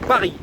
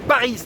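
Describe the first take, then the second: First: The final S sound is silent. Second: The final S sound is pronounced. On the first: The speaker calls it right. "On va à Paris" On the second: The speaker calls it wrong. "on va pas à Paris"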